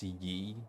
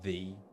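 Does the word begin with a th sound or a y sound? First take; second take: y sound; th sound. First: The word begins with a y sound. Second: The word begins with a th sound. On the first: The speaker calls it wrong. "it shouldn't actually be pronounced ye" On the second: The speaker calls it right. "It should be pronounced the"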